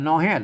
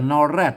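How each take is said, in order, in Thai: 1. พยางค์ที่สองขึ้นต้นด้วยเสียง h 2. พยางค์ที่สองขึ้นต้นด้วยเสียง r (1) "ถ้าเป็นเมืองมันออกฮอ" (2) "ถ้าไทยกับนอแรด"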